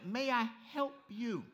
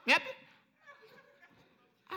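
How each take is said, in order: First: "May I help you" slowly, each word separate; spelled-out translation. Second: High-pitched "Mip you" as one word; run-together accent. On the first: Shown as a demonstration. Preacher translating the counter girl, "May I help you" slowly separated. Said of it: "She was saying". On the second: Retold or imitated. Counter girl to confused customer, high "Mip you" run together. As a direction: squeak out "Mip you" for May I help you, syllables merged. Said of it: "She meant it one word".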